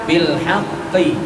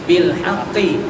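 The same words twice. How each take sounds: No difference in how they are said.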